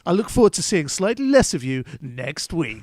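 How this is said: It is said in an exaggerated put-on voice.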